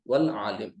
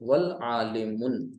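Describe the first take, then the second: First: The word ends on 'm' without a vowel. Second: The word ends with the sound 'un'. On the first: The speaker calls it right. "वक्फ कर देंगे तो क्या पढ़ेंगे" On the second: The speaker calls it wrong. "आलिमुन तो नहीं कहेंगे"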